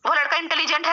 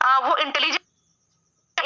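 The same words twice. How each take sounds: First: "इंटेलिजेंट" ending clearly in -t, model sentence; correct form shown. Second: "इंटेलिजेंस" said slowly as the wrong word, ending in -s; wrong form shown. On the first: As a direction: say "वो लड़का इंटेलिजेंट है" as the right model. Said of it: "ऐसा बोलते हो ना?". (सही रूप "इंटेलिजेंट" साफ़ ट के साथ) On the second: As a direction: slowly sound out "वो इंटेलिजेंस" as the mistake to avoid. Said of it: "इंटेलिजेंस नहीं बोलते ना". (गलत रूप "इंटेलिजेंस" धीरे से बोलें) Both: Shown as a demonstration.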